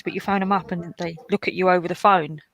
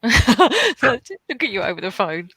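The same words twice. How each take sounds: First: Said in the usual way. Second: Slow, laughing repeat of the phrase. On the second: Real, not acted. To friends on stream, laughing at the phone exam. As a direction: savour the absurdity through a laugh.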